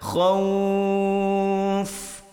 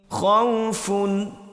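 First: The word ends on the final f consonant. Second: The word ends with the full -un ending. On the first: The reading stops at this word. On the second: The reading continues without stopping.

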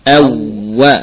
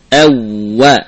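No difference in how they are said.

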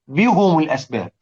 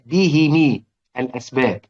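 First: Both the h and the m take a u vowel. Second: Both the h and the m take an i vowel. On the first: "يضموا الهاء" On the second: "أبو عمرو كان يكسر الميم تبعًا للهاء"

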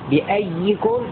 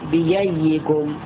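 First: The hamza is a full glottal stop. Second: The hamza is replaced by a y-sound. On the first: "هذا التحقيق" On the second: "أو بييكم"

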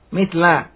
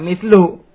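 First: The word ends with an 'a' vowel. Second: The word ends with a 'u' vowel. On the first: It describes a noun in the accusative case. "maka mislnya dibaca fathah" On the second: It describes a noun in the nominative case. "Sifat dari yang marfu, marfu"

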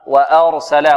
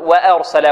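First: The first vowel is a fully open a sound. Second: The first vowel is tilted toward an e sound. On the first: The speaker calls it right. "فتح و" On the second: The speaker calls it wrong. "ولا نقول وأرسل و، لا، بدون تقليل"

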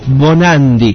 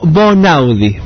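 First: The second syllable sounds like 'nan'. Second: The second syllable sounds like 'nau'. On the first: The speaker calls it wrong. "lo dije mal" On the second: The speaker calls it right. "Bonaudi, muy bien"

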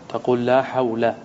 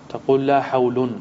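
The two takes are said the same way.

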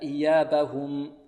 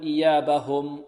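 First: The u vowel after the h is clear. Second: The u vowel after the h is weak. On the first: The speaker calls it right. "هكذا" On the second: The speaker calls it wrong. "لا نقول"

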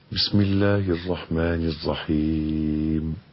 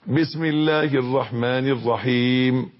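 First: The recitation is at a moderate, audible volume. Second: The recitation is loud and raised. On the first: The speaker calls it right. "يقرأ ما بين السر والجهر" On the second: The speaker calls it wrong. "لا مش كده"

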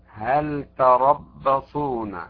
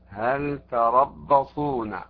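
No difference in how they are said.

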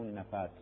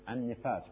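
First: The first consonant is followed by an 'a' vowel. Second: The first consonant is followed by an 'i' vowel. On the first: The speaker calls it wrong. "مو النفاس" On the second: The speaker calls it right. "وأما النفاس هي كسر النون"

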